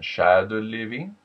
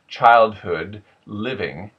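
First: It is said with a French melody going up. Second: It is said with a plain American melody. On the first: "we would probably go a little bit up in the French accent" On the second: "Middle American"

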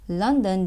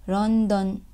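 First: The word begins with an L sound. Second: The word begins with an R sound. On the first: "all the L sounds becomes R sounds" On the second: "London becomes London"

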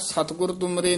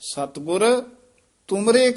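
First: The two words run together without a pause. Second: There is a pause after the first word. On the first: The speaker calls it wrong. "ਨਹੀਂ ਕਹਿ ਦੇਣਾ" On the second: The speaker calls it right. "ਸਤਿਗੁਰ ਤੇ ਵਿਸਰਾਮ ਲਾਉਣਾ"

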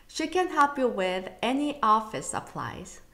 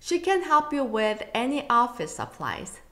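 The two takes are said the same way.

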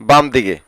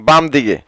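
No difference in how they are said.

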